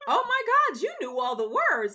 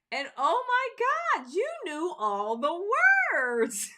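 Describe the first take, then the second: First: High, loud stunned cry; amazed exclaiming. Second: High, slow, squealing amazement; amazed gushing. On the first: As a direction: exclaim it like a shocked friend. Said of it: "my coworker said". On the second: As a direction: gush like a stunned fan. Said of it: "my coworkers were like". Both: Retold or imitated.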